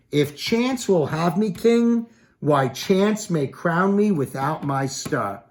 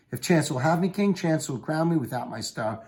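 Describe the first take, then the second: First: Slow, much higher and louder, declaimed; dramatic Shakespeare reading. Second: Said in the usual way. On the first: Acted. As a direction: stretch out the line like a stage actor. Reads Macbeth's decision line.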